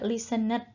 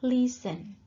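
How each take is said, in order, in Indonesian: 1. Vokal terdengar sebelum huruf d di akhir. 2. Tidak ada vokal yang terdengar sebelum huruf d di akhir. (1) "Bukan juga listened ya" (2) "E-nya nggak dibaca ya"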